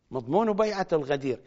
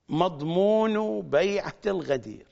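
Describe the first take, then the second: First: مضمون بيعة الغدير said fast and a bit softer; quick softer repeat. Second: مضمون بيعة الغدير said slowly, word by word; slow emphasis. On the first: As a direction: toss off the phrase quickly. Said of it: "repeated phrase, quick take". (بسرعة وبصوت أخفض) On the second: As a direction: lean on مضمون and draw the phrase out. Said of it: "repeated phrase, slow take". (ببطء وتشديد على مضمون) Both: Acted.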